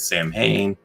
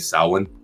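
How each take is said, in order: First: The word is pronounced just as it is spelled. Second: The word is pronounced the traditional Gaelic way. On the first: The speaker calls it wrong. "it's not the way you pronounce it" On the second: The speaker calls it right. "It's actually Samhain"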